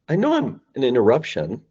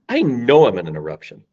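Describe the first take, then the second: First: The voice rises, sounding tentative. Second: The voice falls, sounding firm and hammered. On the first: The caller sounds unsure and apologetic. The speaker calls it wrong. "Their voice will go up" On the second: The caller owns the interruption confidently. The speaker calls it right.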